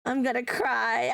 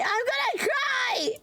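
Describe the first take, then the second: First: Said in the usual way. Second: Mock sobbing wail, much higher, drawn out slow; half-laughing fake meltdown, high and stretched; hammed-up wail. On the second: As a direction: wail it like a big fake cry.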